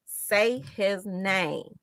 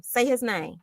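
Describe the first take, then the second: First: Slow, each word stretched: SAY, HIS, NAME; deliberate, stretched repeat for emphasis; drawn-out slogan. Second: Said in the usual way. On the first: Real, not acted. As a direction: spell out the demand slowly, word by word.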